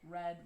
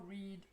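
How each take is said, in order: First: The vowel is short and lax. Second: The vowel is long and tense. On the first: It is the past tense. "the pronunciation for the past tense is the same as for the past participle" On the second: It is the base form of the verb. "The verb base, the infinitive V zero, is read with a tense vowel"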